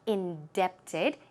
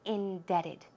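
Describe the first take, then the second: First: The B sound is pronounced in the middle. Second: The B sound is left out entirely. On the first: The speaker calls it wrong. "It is not indebted" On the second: The speaker calls it right. "The B here is silent"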